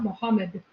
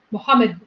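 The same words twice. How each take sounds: First: "Muhammad" with the last d let go in a puff; aspirated final D. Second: "Muhammad" with the last d held back, no puff; unreleased final D. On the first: Showing how it was not said, aspirated final D. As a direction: release the final d of "Muhammad" audibly. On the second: Explaining why D was misheard, unreleased final D. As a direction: stop on the final d of "Muhammad" without releasing it. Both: Shown as a demonstration. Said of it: "it was not an aspirated D".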